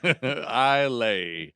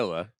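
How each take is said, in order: First: The word ends with a 'lay' sound. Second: The word ends with a 'la' sound. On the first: It is read the way it is spelled. "I'll pronounce it how it looks" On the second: It is said the way local people say it. "as the Scotch would say"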